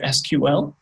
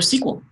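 First: It is spelled out as separate letters. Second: It is said as a single word.

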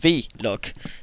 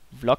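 First: The V is spoken as its letter name. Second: The V is a plain consonant before log. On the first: The speaker calls it right. "jeg elsker at sige V-log" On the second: The speaker calls it wrong. "det er bare lidt stødt mærkeligt"

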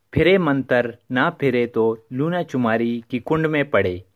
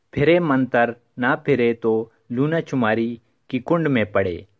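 Both takes have the same delivery.

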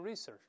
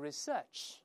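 First: The stress is on the first syllable. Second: The stress is on the second syllable. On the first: This is the American pronunciation. "美国人读成research，重音在前面" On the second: This is the British pronunciation. "英国人会读成research"

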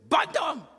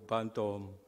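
First: The word is shouted loudly. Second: The word is said in a soft voice. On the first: A stranger is calling the animal. "the thief shouted" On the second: The true owner is calling the animal. "with a soft voice"

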